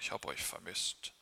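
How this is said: It is spoken in a low, deep voice. It carries little warmth to the children. The speaker calls it wrong. "Ich werde nicht eine tiefe Stimme haben"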